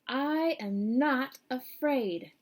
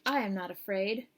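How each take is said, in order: First: It is said much more loudly. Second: It is said at a normal, softer volume.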